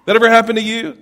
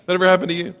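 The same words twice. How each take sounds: First: Lively, raised question to the crowd; excited question. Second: Said in the usual way. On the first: Real, not acted. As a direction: throw it out with a grin and a rising tune. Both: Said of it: "asks the audience twice".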